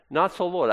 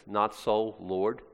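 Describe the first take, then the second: First: Higher, firm refusal with NOT stressed; Peter's protest. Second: Quizzical, softer, rising on Lord; testing the phrase as if it makes no sense; puzzled question. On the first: Retold or imitated. Peter refusing God's command, firm protest. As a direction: push back on God like a stubborn disciple. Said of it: "What is Peter saying to God?". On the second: Shown as a demonstration. Preacher doubting Peter's odd wording, quizzical. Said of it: "Those aren't words that go together well".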